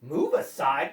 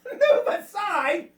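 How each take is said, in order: First: Low, dropped-pitch echo; incredulous cat. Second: High, drawn-out outraged echo; indignant cat. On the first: Cat echoing the land crabs, low and incredulous. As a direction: repeat it low, in disbelief. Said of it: "cried the cat". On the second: Cat scoffing at the land crabs, indignant. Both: A narrator's reading.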